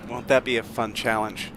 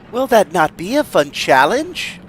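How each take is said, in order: First: The negative is contracted to one word. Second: The negative is said as two separate words.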